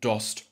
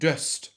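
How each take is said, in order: First: The vowel is a short open o. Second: The vowel is a short open ö. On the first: This is the Hamburg form. "macht der Hamburger ein kurzes offenes O" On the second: This is the general Low German form. "Aus dem kurzen offenen Ö"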